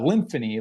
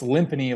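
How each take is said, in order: First: The middle consonant is an f sound. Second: The middle consonant is a p sound. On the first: The speaker calls it wrong. "like symphony" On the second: The speaker calls it right. "like timpani"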